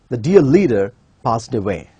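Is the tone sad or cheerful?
sad. It is said in a sad, falling tone.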